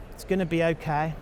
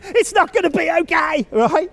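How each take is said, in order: First: Softly reassuring, a little quieter. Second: Loud, high shout of doom. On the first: Parent reassuring their distressed daughter, soft and calm. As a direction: tell your child gently it will be fine. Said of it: "We reassure her all the time". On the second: Speaker showing parents what not to say, loud shout. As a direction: blurt the bad news out at full volume. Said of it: "sorry if I shouted". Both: Shown as a demonstration.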